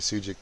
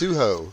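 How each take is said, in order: First: The name ends in a 'jik' sound. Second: The name ends in an 'o' sound. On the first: The speaker calls it wrong. "I was calling him Sujik too" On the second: The speaker calls it right. "It's Suho. He said the jik is uh, silent"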